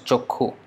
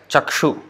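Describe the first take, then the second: First: The middle consonant is a kh sound. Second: The middle consonant is a ksh sound. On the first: This is how Bengali speakers say it. "but they pronounce as chokhu" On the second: This is how the word is written. "they will write as chakshu"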